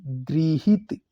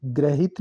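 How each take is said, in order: First: गृहित drawn out as "gri-hit"; correct pronunciation. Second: ग्रहित said "grahit"; wrong pronunciation. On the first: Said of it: "री की मात्रा". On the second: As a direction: say ग्रहित with "gra". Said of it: "ग्रहित नहीं". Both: Shown as a demonstration.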